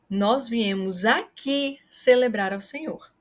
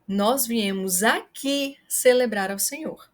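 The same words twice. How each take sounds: First: The word aqui is stressed. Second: The same.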